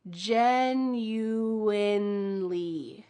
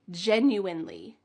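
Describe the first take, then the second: First: Genuinely stretched slowly with a clear N in the middle; teacher slow demo of genuinely; very slow and careful. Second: Said in the usual way. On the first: Shown as a demonstration. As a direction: draw out genuinely, landing on the middle N. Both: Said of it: "There is an N in the middle of this word".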